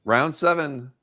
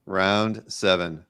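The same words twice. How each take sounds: First: Said in the usual way. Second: Slow drawn-out announcement. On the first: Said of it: "repeats announcement". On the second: Real, not acted. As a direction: round seven drawn out slowly. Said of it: "slowed repeat".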